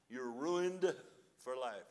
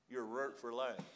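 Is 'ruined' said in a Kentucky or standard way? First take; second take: standard; Kentucky. First: Ruined is said fully in the standard way. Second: Ruined is squeezed to runt, Kentucky style.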